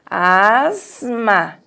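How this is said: The s sounds like a z. "tem o som de Z"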